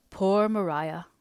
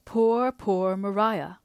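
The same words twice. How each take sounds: First: Gently sorrowful sigh of a name; tender. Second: Slow, aching repetition of pity; tender. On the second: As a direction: draw out each poor with grief. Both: Acted. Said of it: "replied Mister Hale tenderly".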